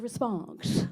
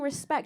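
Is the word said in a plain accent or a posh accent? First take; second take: posh; plain. First: It is said in an exaggerated upper-class English accent. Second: It is said in an ordinary, unmarked accent. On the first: The speaker calls it wrong. "he'd say" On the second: The speaker calls it right. "instead of saying"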